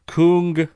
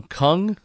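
First: "Kung" with a long oo vowel. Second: "Kung" like "lung", rising as a question. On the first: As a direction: say "Kung" to rhyme roughly with "spoon". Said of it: "Maybe that's pronounced wrong". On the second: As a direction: try "Kung" with a short uh, unsure. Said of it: "pronounced wrong". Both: Shown as a demonstration.

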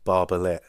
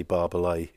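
First: Barbalet said with a hard final T, like Barbalette; wrong Barbalet. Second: Barbalet said Barbalay with a silent T; French Barbalet. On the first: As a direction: end Barbalet on a sharp -let. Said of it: "managed to say Barbalet". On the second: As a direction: Barbalet said the way its owner says it. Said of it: "wanting to say Barbalet". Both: Shown as a demonstration.

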